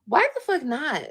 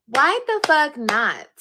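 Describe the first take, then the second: First: Said in the usual way. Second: Slow and louder, each word leaned on; slow, loud repeat. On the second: Real, not acted. Repeating her defiant question to viewers, slow and louder. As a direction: hammer the question home, slowly and loud.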